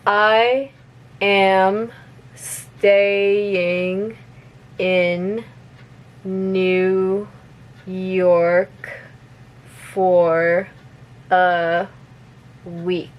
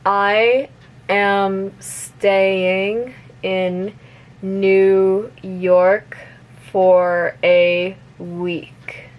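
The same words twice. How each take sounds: First: The sentence is spoken very slowly. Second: The sentence is spoken at a moderate speed. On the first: "I'm gonna repeat it slowly first" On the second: "a little bit faster"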